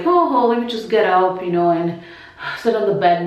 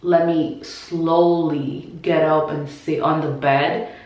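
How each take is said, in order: First: Breezy. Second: Slow and careful. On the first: What she could not do, a breezy quick getting up. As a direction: toss it off as if getting up is easy. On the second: How she really had to get up, slow and careful. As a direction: drag each word like every move costs breath. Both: Shown as a demonstration. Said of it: "No, it was kinda like".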